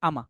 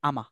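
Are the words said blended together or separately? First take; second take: blended; blended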